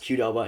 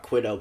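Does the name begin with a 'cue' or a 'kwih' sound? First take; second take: cue; kwih. First: The name begins with a 'cue' sound. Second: The name begins with a 'kwih' sound. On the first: The speaker calls it right. "apparently is pronounced Qdoba" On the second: The speaker calls it wrong. "and not Quidoba"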